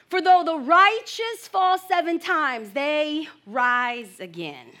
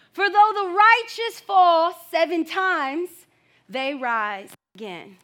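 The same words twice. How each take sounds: First: Slow, stress on though; slow scripture reading. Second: Slow, though rising; slow emphatic reading. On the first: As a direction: read it out with weight. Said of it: "reading the verse aloud". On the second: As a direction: repeat for weight. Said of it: "repeating the verse for emphasis". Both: Shown as a demonstration.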